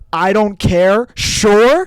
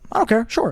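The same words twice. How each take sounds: First: It is said in an aggressive, hostile tone. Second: It is said in a casual, indifferent tone.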